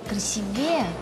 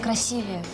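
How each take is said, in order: First: The stress is on the last syllable. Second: The stress is on the second syllable. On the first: The speaker calls it wrong. "звучит неверно ... на букву «Е», на последний слог" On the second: The speaker calls it right. "Правильно, «красивее». Ударение должно падать на букву «и»"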